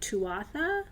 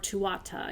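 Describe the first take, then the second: First: The word ends with a 'tha' syllable. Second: The word ends with a 'ta' syllable. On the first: "it looks like Tuatha, and people pronounce it that way" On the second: "you'll hear that too"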